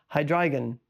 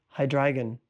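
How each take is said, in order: The two takes are said the same way.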